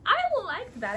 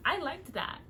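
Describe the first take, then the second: First: Higher, louder, pleased with herself; delighted, louder second take; excited repeat. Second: Said in the usual way. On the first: Real, not acted. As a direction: say it again with a delighted lift.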